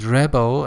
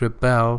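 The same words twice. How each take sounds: First: The stress is on the first syllable. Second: The stress is on the second syllable. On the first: It is used as a noun. "as a noun" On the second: It is used as a verb. "second syllable, uh, as a verb"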